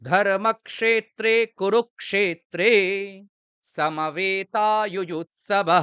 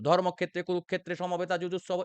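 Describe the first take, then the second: First: A short pause follows the first eight syllables. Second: The line is read straight through without pausing. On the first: The speaker calls it right. "আমরা একদমে আটটি করে letter পড়ব এবং কিছুক্ষণ pause দেব" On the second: The speaker calls it wrong. "আমরা একটানা পড়বো না কিন্তু"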